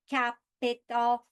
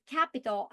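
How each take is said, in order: First: Capital split into three slow, even robot syllables, ca-pi-tal. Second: Said in the usual way. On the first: Shown as a demonstration. Teacher showing students how syllables break, robotic and slow. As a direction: chop capital into separate beats like a robot. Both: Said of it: "If I speak like a robot".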